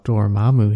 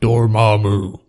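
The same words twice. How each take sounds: First: The name is said lightly and cheerfully. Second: The name is said in a dark, menacing way.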